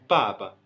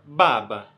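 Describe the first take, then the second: First: The first consonant sounds between b and p. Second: The first consonant is a full, clearly voiced b. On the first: "Já em mandarim é tipo baba" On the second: "Se for em português, a gente fala baba. O B ele é muito mais exposto"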